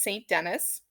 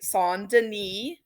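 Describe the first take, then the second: First: The name is pronounced with English sounds. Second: The name is pronounced with French sounds. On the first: "what we'd probably say is" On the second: "your proper French pronun- pronunciation"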